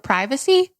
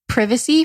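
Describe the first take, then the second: First: It is pronounced the American way. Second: It is pronounced the British way.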